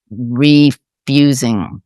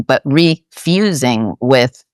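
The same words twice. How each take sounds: First: "refusing" drawn out slowly, falling; slow stress on refusing. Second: "refusing" stretched slowly before "with"; stress on refusing with source. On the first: Guest explaining the Course's idea, slow stressed word. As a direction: linger on "refusing". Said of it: "and not refusing, but refusing with". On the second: Guest contrasting refusals, slow deliberate stress. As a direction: lean slowly on "refusing" again. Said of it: "and not refusing". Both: Shown as a demonstration.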